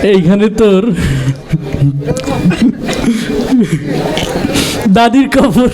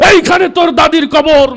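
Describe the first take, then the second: First: It is recited timidly and hesitantly. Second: It is recited loudly like a fiery speech. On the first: The reciter is embarrassed to speak in public. "আবৃত্তি করতে খুব লজ্জা পাচ্ছিল" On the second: The reciter is a politician used to heated speeches. "রাজনীতির মঞ্চে গরম বক্তব্য দিয়ে অভ্যাস"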